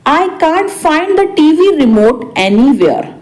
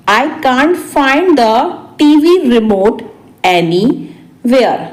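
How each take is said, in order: First: Said in the usual way. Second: Spaced-out repeat. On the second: Shown as a demonstration. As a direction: break it up for learners. Teacher repeats translation word by word. (रुक-रुककर, आखिरी शब्द खींचकर)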